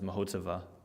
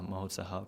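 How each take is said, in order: First: The last syllable of the name sounds like 'va'. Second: The last syllable of the name sounds like 'ha'. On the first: The speaker calls it wrong. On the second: The speaker calls it right.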